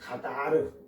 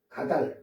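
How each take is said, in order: First: The word ends with an extra final vowel syllable. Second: The word ends on a final consonant. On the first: This is the way the speaker usually reads it. "가다르라고 하잖아요" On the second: This is the way a phone app reads it. "이걸 거기서는 가달해요"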